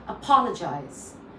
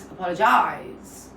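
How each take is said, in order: First: The stress is on the second syllable. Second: The stress is on the last syllable. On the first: The speaker calls it right. "If I'm stressing on pa" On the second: The speaker calls it wrong. "But if I'm stressing on jize"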